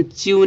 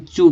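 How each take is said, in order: First: "च्यू" as chyoo, y-glide after ch; "च्यू" with an i sound before the oo; wrong reading. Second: "चू" as a clean choo, no y-glide; "चू" pronounced choo; correct reading. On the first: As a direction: demonstrate the mistake: "च्यू" said chee-oo. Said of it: "ये गलत है". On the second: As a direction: model the right sound: "चू" with ch straight into oo. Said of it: "इसको हम चू पढ़ेंगे". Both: Shown as a demonstration.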